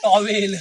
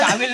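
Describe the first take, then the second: First: The first vowel is a rounded 'aw' sound. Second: The first vowel is an open 'aa' sound. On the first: The speaker calls it right. "Sorry टॉवेल" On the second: The speaker calls it wrong. "टावेल नाही"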